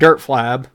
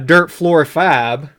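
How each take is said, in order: First: The name is slurred, with syllables run together. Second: The name is said clearly, every syllable distinct. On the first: The speaker has been drinking. "as I say when I've been drinking" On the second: The speaker is sober enough. "I'm not quite that drunk tonight where I can't quite enunciate"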